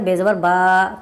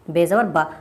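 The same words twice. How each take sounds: First: The final vowel is stretched out long. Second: The final vowel is short and quick. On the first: The speaker calls it wrong. "अब कोई अगर इसको ऐसे पढ़े बेज़बर बा तो ये गलत" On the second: The speaker calls it right. "ज़बर ज़ेर पेश हमेशा जल्दी पढ़ जाएंगे, खींच कर नहीं"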